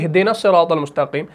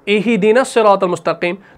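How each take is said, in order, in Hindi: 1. "h" बंद है, उसके बाद कोई स्वर नहीं। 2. "h" के बाद छोटा "i" स्वर है। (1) "जज्म को ही पढ़ते हैं" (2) "इसको मकसूर बना दे ... ये गलती है"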